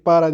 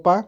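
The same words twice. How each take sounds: First: Said in the usual way. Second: "para" dicho como "pa", una sola sílaba; "pa" reducido. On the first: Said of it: "En lugar de decir". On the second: Shown as a demonstration. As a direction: corta "para" a "pa". ("pa" en vez de "para", relajado)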